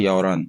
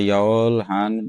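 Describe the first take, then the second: First: It is said smoothly with the h sound silent. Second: It is said slowly with the h sound heard. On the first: "हियत की आवाज इतनी ज्यादा नहीं आती, वो साइलेंट हो जाता है" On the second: "हम इसको स्लो स्लो पढ़ेंगे तो ये बनता है"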